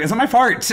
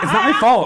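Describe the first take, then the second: First: The last word comes out sounding like 'fart'. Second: The last word is pronounced clearly as 'fault'. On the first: This is a slip caused by a speech impediment. The speaker calls it wrong. "I will regularly say, it's not my fart" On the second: This is the intended phrase. The speaker calls it right. "when I'm trying to say the phrase, it's not my fault"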